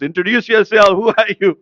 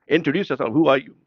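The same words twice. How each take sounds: First: Loud, raised, insistent demand; voice of God. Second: Said in the usual way. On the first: Acted. Divine voice asks Jibreel a third time, commanding. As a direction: call it out with mounting authority. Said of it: "the third time it comes". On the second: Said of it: "word by word".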